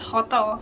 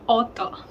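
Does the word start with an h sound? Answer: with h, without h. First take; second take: with h; without h. First: The word starts with an audible h sound. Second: The word starts with no h sound.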